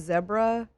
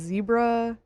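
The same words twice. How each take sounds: First: Zebra is said with a British pronunciation. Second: Zebra is said with an American pronunciation.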